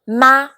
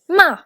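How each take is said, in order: First: The pitch rises from middle to high. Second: The pitch falls sharply from high. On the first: "for the second tone" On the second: "for the fourth tone"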